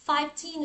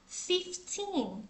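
First: Put-on "fifteen" said as fife-teen, with the vowel of five; mistaken pronunciation. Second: Put-on "fifteen" slowly, short i in fif, long teen; correct pronunciation. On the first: Teacher showing a common mistake, "fifteen" mispronounced as five-teen. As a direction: mimic the learner error five-teen for "fifteen". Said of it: "Rất nhiều bạn nhầm và đọc". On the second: Shown as a demonstration. Teacher correcting learners, "fifteen" pronounced slowly as fif-teen. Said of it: "Mình sẽ đọc là".

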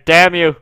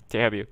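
First: Loud furious curse; real gamer rage, louder; angry shout. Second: Said in the usual way. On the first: Real, not acted. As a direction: yell it at the screen. Cursing the game.

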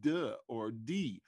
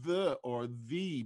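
First: THE said as duh, then dee; THE turned into dialect DUH or DEE. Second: THE, both thuh and thee, with a long buzzing TH; THE said with full standard TH; voiced TH. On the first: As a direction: slowly put a hard D on THE. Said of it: "they became day". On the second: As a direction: slowly draw out the TH in THE. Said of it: "that T H sound". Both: Shown as a demonstration.

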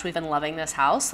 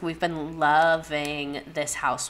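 First: Said in the usual way. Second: "loving" stretched out slowly; slow, emphatic "loving"; stress on loving. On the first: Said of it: "Let me just show you how much". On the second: Real, not acted. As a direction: draw out the word "loving". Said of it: "show you how much we've been loving".

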